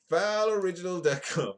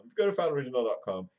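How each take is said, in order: First: Higher, louder hammed-up announcer call; announcer-style plug. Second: Said in the usual way. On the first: Vlogger plugging his own website, hammed-up announcer shout. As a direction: boom out the web address like an ad.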